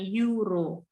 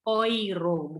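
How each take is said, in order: First: The word begins with a 'yoo' sound. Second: The word begins with an 'oy' sound. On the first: The speaker calls it wrong. "bukan euro" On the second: The speaker calls it right. "E U itu bacanya oi"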